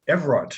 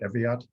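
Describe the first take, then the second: First: The name is said with an R after V. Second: The name is said without an R after V. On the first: The speaker calls it right. "E V R A R T" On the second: The speaker calls it wrong. "I botched that"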